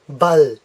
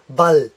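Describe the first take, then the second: First: The L is light with the tongue forward. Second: The L is light with the tongue forward.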